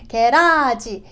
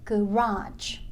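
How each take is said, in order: First: The first syllable is pronounced fully. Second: The first syllable is weakened and reduced. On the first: The speaker calls it wrong. "게라지가 아니라" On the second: The speaker calls it right. "앞에 가를 죽여야 돼요"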